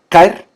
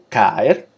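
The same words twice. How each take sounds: First: The two vowels merge into one syllable. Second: The two vowels fall in separate syllables. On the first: The speaker calls it wrong. "que uno no dice caer" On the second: The speaker calls it right. "sino caer"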